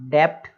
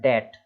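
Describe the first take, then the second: First: The b sound is pronounced before the t. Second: The b sound is silent before the t. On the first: The speaker calls it wrong. "तो इसको डेप्ट ऐसे नहीं पढ़ेंगे" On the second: The speaker calls it right. "केवल डेट।"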